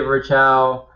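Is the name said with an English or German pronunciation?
English. The name is said with an English pronunciation. This is how the speaker personally says it. "I say Virchow"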